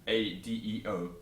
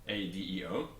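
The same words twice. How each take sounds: Both takes have the same delivery.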